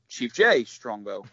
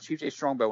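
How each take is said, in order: First: The stress falls oddly on J. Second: The stress falls naturally on Strongbow. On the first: The speaker calls it wrong. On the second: The speaker calls it right.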